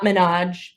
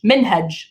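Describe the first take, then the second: First: "Minaj" said like the rapper, min-AHJ with no h; the wrong take: "Minaj" without the h; wrong pronunciation. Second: "Minhaj" with a clear h, min-HAHJ; the right take: "Minhaj" with the h sounded; correct pronunciation. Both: Shown as a demonstration. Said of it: "I'm gonna call him [name], not [name]".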